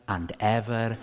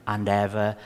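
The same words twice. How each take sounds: The two takes are said the same way.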